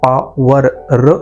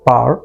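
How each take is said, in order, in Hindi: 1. आखिरी r की आवाज़ साफ़ बोली जाती है। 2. आखिरी r की आवाज़ लगभग न के बराबर बोली जाती है। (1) "र नहीं कहोगे आप" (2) "आप कहोगे पार"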